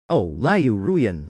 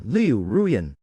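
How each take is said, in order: First: Drawn-out mocking. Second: Said in the usual way. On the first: A narrator's reading. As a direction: stretch "Oh, Liu Ruyan" out slowly, sneering. Mocking her fake tears.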